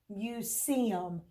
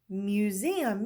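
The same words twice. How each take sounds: First: The middle consonant is a hissing s sound. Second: The middle consonant is a buzzing z sound. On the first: The speaker calls it wrong. "we'll start out with the um, unvoiced S" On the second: The speaker calls it right. "so that's voiced S"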